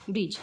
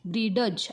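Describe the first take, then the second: First: No d sound is heard before the end. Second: A d sound is heard before the end. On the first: The speaker calls it right. "काय आहे बघा ब्रिज" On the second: The speaker calls it wrong. "ब्रीडज असं म्हणायचं नाही"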